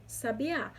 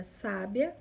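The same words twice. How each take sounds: First: Sabiá stressed on the final Á; stress on last syllable. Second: Sábia stressed on SÁ; stress on first syllable. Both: Shown as a demonstration. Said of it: "através do acento agudo".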